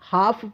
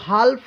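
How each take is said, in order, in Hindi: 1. L चुप रहता है, इसकी कोई L आवाज़ नहीं होती। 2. L की आवाज़ F से पहले बोली जाती है। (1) "हाफ बोलते हैं" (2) "हाल्फ नहीं"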